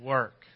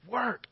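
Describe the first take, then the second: First: It is said with a weary, disappointed sigh. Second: It is said eagerly, with upbeat excitement.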